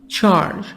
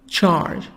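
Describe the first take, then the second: The two takes are said the same way.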